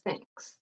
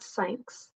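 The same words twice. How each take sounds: First: The word begins with a th sound. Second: The word begins with an s sound. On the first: The speaker calls it right. "between your teeth. No vibration" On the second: The speaker calls it wrong. "it's not with the S. It's not thanks"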